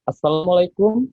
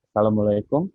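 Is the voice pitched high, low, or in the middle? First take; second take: high; low. First: It is said in a high-pitched voice. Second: It is said in a low-pitched voice. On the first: "suara tinggi saya" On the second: "suara rendah saya"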